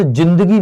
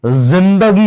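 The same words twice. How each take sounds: First: जिंदगी said with a plain j as in jug; जिंदगी with the ज as a hard j, no nukta; without nukta. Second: जिंदगी said with a z sound, ज़िंदगी; with nukta z. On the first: Teacher shows students the wrong j in जिंदगी. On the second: Teacher shows students the correct z in जिंदगी. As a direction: start जिंदगी with a buzzing z, the nukta ज़. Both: Shown as a demonstration. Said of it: "नुक्ता लगाना पड़ेगा".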